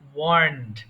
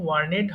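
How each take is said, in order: First: The ending adds no extra syllable. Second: The ending is said as an extra syllable. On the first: The speaker calls it right. "এটা হবে ওয়ার্নড" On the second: The speaker calls it wrong. "এটা কিন্তু ওয়ার্নেড হবে না"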